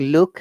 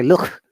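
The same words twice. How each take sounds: First: The word ends with a plain k sound. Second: The word ends with a Scouse-style k sound. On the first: "they don't say look" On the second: "they say look"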